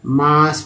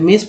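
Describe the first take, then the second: First: The vowel sounds like 'aa'. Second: The vowel sounds like 'eh'. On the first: The speaker calls it right. "मास आ के रूप में" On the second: The speaker calls it wrong. "तो मेस पढ़ते"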